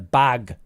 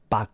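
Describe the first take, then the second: First: The final g sound is clearly voiced. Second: The final g sound is weak or missing. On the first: The speaker calls it right. "But we need bag. Get the g in there" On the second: The speaker calls it wrong. "when you say it, it sounds like bag"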